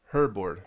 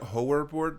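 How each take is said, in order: First: The first syllable sounds like 'hur'. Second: The first syllable sounds like 'hor'. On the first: The speaker calls it right. "it's pronounced like Hurt" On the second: The speaker calls it wrong. "I was calling it Horrorboard before"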